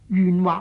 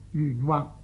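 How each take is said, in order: First: The first syllable has the same tone as 愿. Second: The first syllable is said in the ping tone. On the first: The speaker calls it right. "圆字的字音和心愿的愿字……是同音" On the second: The speaker calls it wrong. "读错做平声"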